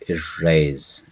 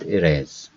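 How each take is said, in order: First: The R is held long and said deep. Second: The R is short and said lightly. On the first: The speaker calls it right. "It's a deep erase" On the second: The speaker calls it wrong. "It is not erase"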